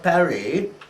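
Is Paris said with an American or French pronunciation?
French. It is said with a French pronunciation.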